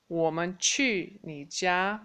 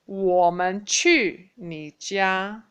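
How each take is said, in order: First: Said in the usual way. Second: 我们去你家 said very slowly and louder; slow loud model sentence; slow review drill. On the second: Shown as a demonstration. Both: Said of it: "let's review again".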